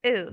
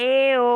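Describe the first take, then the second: First: এও as one short, light syllable; touch এও lightly, vowels joined; quick correct model of এও after the long one; short, light pressure. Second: এ ও stretched loud as two sounds; exaggerated wrong way, long এ then ও; drawn-out separate vowels. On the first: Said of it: "short করে বলবেন". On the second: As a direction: lean hard on এ, then a separate ও. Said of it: "এভাবে না". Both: Shown as a demonstration.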